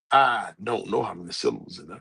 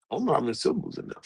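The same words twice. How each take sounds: First: Low, deliberate, unashamed declaration; proud admission. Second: Rapid, softer restatement; quick repeat. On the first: Shown as a demonstration. Speaker owning up to not knowing syllables, proudly. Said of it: "happily with my chest out proud". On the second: Real, not acted. Speaker repeating the syllable admission, quick and offhand. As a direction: rattle it off quickly and quietly.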